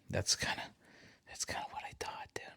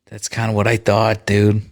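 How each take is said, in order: First: Barely audible, voiceless murmur; near-whisper. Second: Said in the usual way. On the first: Real, not acted. Streamer to a silent challenger, near-whisper. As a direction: say it very softly, almost to yourself. Muttering before saying it aloud.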